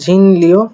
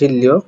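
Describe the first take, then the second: First: The first syllable ends in an n sound. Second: The first syllable ends in an l sound. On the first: The speaker calls it wrong. "এটা ঝিনলিও উচ্চারণ করবেন, কিন্তু" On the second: The speaker calls it right. "এটা সঠিক উচ্চারণ ঝিল্লিও"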